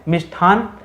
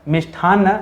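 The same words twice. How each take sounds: No difference in how they are said.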